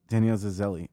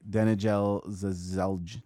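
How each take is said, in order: First: The j in the name sounds like y. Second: The j in the name sounds like j. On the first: "The J's are usually pronounced as Y's" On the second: "I was going to say"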